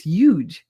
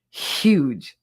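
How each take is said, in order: First: "huge" said as YOOGE, no H; Jersey dropped H. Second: "Huge" with an effortful, audible H; H pronounced. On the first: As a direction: drop the H from "huge", Jersey style. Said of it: "That must be a Jersey thing". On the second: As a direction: lean on the H of "Huge". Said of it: "It's just too much effort". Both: Shown as a demonstration.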